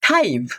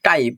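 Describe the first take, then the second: First: The first t has a puff of air. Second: The first t has no puff of air. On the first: The speaker calls it right. "এটা হচ্ছে টাইপ" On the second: The speaker calls it wrong. "Not টাইপ"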